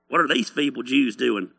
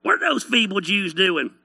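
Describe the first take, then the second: First: Lower, barely disguised scoffer; a half-hearted character voice, pitched down; mocker in own voice. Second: Jeering hillbilly twang, livelier; hillbilly mocker. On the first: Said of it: "That's my voice. It's the only voice I have". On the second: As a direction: scoff in a hillbilly accent. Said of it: "I just picture them as a bunch of inbred hillbillies".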